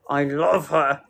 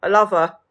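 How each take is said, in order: First: Low, drawn-down repeat; convincing yourself, pitched down; insistent reassurance. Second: Said in the usual way. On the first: Real, not acted. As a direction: insist on it in a lower voice.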